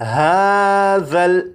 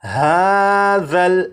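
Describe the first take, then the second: No difference in how they are said.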